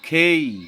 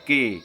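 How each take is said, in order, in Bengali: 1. k এর সঙ্গে বাতাসের ঝলক থাকে। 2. k সাধারণ, এতে বাতাসের ঝলক নেই। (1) "অথচ হবে খেই" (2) "আমাদের বিদ্যালয়গুলোতে শেখানো হয় কে"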